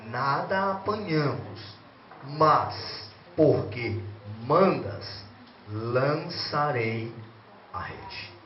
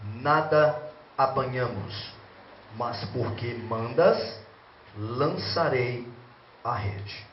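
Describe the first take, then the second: First: It is read slowly and deliberately. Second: It is read at a normal pace.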